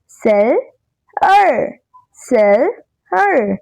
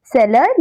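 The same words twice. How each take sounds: First: seller slowly split as सेल, pause, अर; two separate syllables. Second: Said in the usual way. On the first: Shown as a demonstration. Teacher has children repeat after her, seller slowly broken in two. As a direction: say seller in two drawn-out beats, sel... er. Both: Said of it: "Some words have two syllable".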